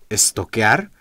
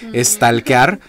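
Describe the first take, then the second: First: There is no L and the vowel sounds like O. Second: The L is sounded and the vowel is A. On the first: The speaker calls it right. "donde la L se elimina y la A suena como O" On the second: The speaker calls it wrong. "me llega a causar un poco de ruido"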